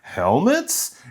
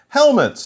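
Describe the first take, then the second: First: The pitch rises at the end. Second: The pitch falls at the end. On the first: It is a surprised question. The speaker calls it right. "No, helmets?" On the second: It is a plain statement. The speaker calls it wrong. "not helmets"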